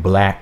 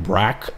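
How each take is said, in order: First: The word is said with a clear L sound. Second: The word is said with an R-like sound. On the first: The speaker calls it right. "saying black with an L" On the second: The speaker calls it wrong. "He's like brack"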